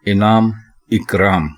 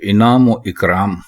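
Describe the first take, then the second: First: No sound is inserted between the two words. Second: An 'o' sound joins the two words. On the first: The speaker calls it right. "दुरुस्त है" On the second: The speaker calls it wrong. "गलत है"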